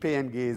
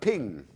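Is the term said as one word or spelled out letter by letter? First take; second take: spelled out; one word. First: The term is spelled out letter by letter. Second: The term is said as one short word. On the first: The speaker calls it wrong. "Nicht PNG" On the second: The speaker calls it right. "sondern man sagt Ping"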